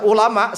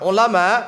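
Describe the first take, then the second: First: It begins with a light glottal catch. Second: It begins with a deep throat-squeezed consonant. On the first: The word means very painful ones. The speaker calls it wrong. "salah membaca ulama dengan hamzah" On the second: The word means scholars. The speaker calls it right. "bidhamil aini al-muhmalati wa fathil lami"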